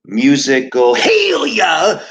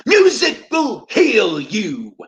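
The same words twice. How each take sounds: First: Slow, loud, higher televangelist shout; hammed-up revival preacher calling out healing; preacher's healing cry. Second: Slow, much higher, loud preacher shout falling at the end; mock faith healer hitting the big line; preacher's healing shout. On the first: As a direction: cry out like a faith healer at the pulpit. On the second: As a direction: stretch out "Musical" like a tent-revival preacher. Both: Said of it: "The Reverend Peace is about to broadcast".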